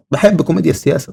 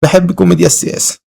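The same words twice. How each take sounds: First: Said in the usual way. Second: Loud, strained retake of the line. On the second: Pretend. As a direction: force the line out louder. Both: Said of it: "حرام".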